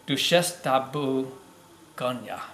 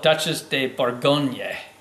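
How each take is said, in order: First: The first word has a French pronunciation. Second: The first word has an English pronunciation. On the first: This is the proper way to say it. The speaker calls it right. "The proper pronunciation on this is" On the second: This is the common way people say it. The speaker calls it wrong. "A lot of people call it"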